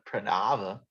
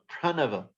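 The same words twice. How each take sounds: First: The second syllable is stressed. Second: The second syllable is not stressed. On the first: The speaker calls it wrong. "not Pranava. ... we overemphasize a second syllable" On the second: The speaker calls it right. "So Pranava"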